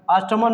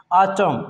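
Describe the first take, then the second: First: ऑटमन with extra "mun" ending; wrong sounded N. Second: ऑटम ending on M, no N; silent N. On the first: Teacher forbidding the mistake, ऑटमन with N. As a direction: pronounce the final N in ऑटमन. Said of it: "नहीं पढ़ते हैं". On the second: Teacher models the correct word, ऑटम with silent N. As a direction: say ऑटम stopping at M. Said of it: "क्या पढ़ेंगे". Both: Shown as a demonstration.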